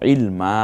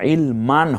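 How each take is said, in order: First: The word ends on a drawn-out vowel. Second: The word ends with a final 'n' sound. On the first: The speaker calls it right. "একালিপ টেনে বলবো" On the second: The speaker calls it wrong. "ইলমান হবে না"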